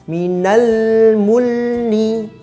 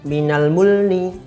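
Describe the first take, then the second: First: The phrase is said slowly and carefully. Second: The phrase is said quickly and rushed. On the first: The speaker calls it right. "Yang tepat adalah" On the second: The speaker calls it wrong. "penyebutannya terlalu cepat"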